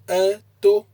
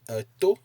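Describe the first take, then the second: First: The pitch is high on both syllables. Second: The pitch is high on the second syllable. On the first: It means he went out. "if you place the intonation on the a and the to" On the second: It means an ear. "you place a high intonation on the O"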